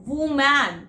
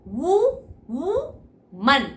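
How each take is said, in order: First: वुमैन with an open man vowel; teacher shows the mistake to avoid; wrong pronunciation. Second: वुमन split and drawn out, lips rounded on वु; teacher models वुमन for students to repeat; slow lip-rounded drill. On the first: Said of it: "वुमैन नहीं होगा". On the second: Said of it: "बोलो मेरे पीछे पीछे". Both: Shown as a demonstration.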